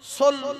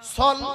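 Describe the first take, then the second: First: The vowel sounds like a rounded 'o'. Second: The vowel sounds like an open 'a'. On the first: The speaker calls it wrong. "সোল হবে না" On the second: The speaker calls it right. "সল হবে"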